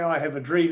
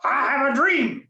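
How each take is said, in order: First: It is said flatly, without feeling. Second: It is said with passion and enthusiasm.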